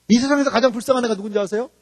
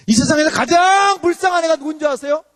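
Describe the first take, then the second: First: Said in the usual way. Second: 가장 stretched long, high and loud; stress on 가장. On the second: Real, not acted. Preacher asking who is most pitiful, 가장 heavily stretched. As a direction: draw out 가장 emphatically. Repeats question with drawn-out emphasis.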